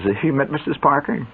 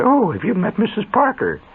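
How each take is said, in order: First: Said in the usual way. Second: Lightly voiced society hostess, higher; prissy hostess. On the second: Mother introduces her guest, a hint of a prissy hostess voice. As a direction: play the genteel lady of the house. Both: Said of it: "my mother didn't talk like that".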